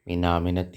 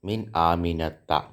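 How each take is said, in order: First: The name ends with an 'i' vowel. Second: The name ends with an 'a' vowel. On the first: The speaker calls it wrong. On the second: The speaker calls it right.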